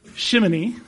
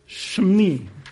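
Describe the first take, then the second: First: It is said with three syllables. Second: It is said with two syllables. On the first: The speaker calls it wrong. "It's not shimini" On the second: The speaker calls it right. "It's shimni"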